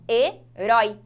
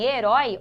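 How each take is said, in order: First: "Herói" split in two, pause after the first syllable; separação silábica. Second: Said in the usual way. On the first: Shown as a demonstration. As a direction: loudly separate "he" from "rói" in "Herói". ("Herói" separado em duas sílabas, com pausa) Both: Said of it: "olha lá a separação".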